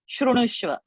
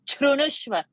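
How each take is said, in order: First: The word begins with a soft sh sound. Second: The word begins with a forceful ch sound. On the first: The speaker calls it wrong. "everybody says shrunushva. It is not shrunushva" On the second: The speaker calls it right. "chru sound has to come"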